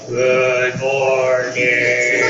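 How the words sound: It is said slowly and lifelessly, like a zombie.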